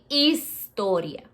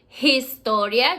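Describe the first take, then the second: First: The h at the start is silent. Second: The h at the start is pronounced. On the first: The speaker calls it right. "Remember the H is silent" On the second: The speaker calls it wrong. "you don't say historia"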